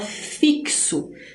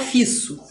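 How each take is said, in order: First: The x sounds like k plus s. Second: The x sounds like a plain s. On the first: The speaker calls it right. "A gente fala fixo ... É o K e o S juntos" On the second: The speaker calls it wrong. "A gente não fala fisso"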